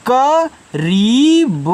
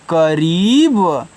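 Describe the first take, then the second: First: करीब stretched slowly, the ई pulled long; drawn out. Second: Said in the usual way. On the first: Shown as a demonstration. Teacher showing children how to stretch करीब. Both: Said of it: "अपनी तरफ खींचना".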